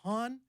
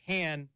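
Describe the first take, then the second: First: The name sounds like 'Han' in 'Han Solo'. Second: The name sounds like the word 'hand'. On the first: "like Han Solo" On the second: "as in like hand"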